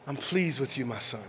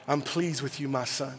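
First: Even softer, lower, fading repeat. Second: Soft, low, tender whisper; tender voice of God. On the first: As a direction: let it fade almost to nothing. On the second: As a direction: speak it gently as a loving father. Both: Retold or imitated. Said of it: "God telling me".

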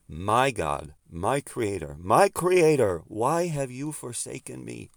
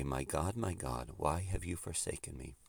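First: Rising to a loud, high cry on the second creator; anguished cry. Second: Hushed, forsaken plea, much softer; quiet anguish. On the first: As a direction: cry it out to God from the cross. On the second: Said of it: "Which is to say". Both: Retold or imitated.

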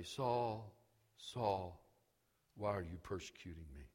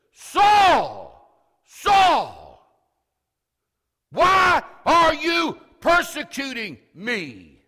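First: Low, quiet and quick, no emphasis; deliberately unemphatic, soft low voice; understated call. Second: Loud, slow shout with authority; booming, drawn-out commanding holler; emphatic call. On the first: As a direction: murmur it low, as if it hardly matters. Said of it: "he doesn't say". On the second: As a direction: call out each phrase at full force. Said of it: "he says with an emphatic call". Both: Shown as a demonstration.

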